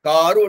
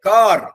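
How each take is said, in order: First: The word ends with an added vowel. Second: The word ends on a bare consonant. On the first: It has become a Telugu word. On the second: It is the English form of the word.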